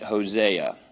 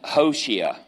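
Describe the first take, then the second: First: The name is said with an English pronunciation. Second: The name is said with a Hebrew pronunciation. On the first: This is how English speakers usually say the name. "What we say. We give it a Spanish twist" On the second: This is how a Hebrew speaker says the name. "I don't know it in Hebrew"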